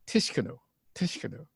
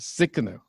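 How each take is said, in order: First: The initial T is clearly pronounced. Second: The initial T is barely audible. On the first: The speaker calls it wrong. "So I said Tsikanu" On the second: The speaker calls it right. "You can barely hear the T"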